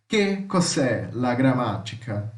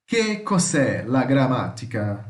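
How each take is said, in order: First: Slow repeat. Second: Slow, careful Italian read-out. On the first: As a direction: repeat it slowly and clearly. (repetição lenta) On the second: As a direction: read each word slowly for the class. (leitura lenta em italiano) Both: Shown as a demonstration.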